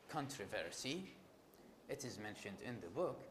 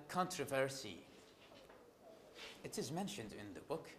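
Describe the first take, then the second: Both takes have the same delivery.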